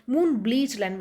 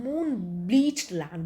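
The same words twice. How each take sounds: First: Said in the usual way. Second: Moon-bleached land, stretched out slowly; slow and drawn out. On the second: Shown as a demonstration. Teacher slowly drawing out the word for the class. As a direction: draw out each syllable of moon-bleached land. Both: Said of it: "Spray means where the sea".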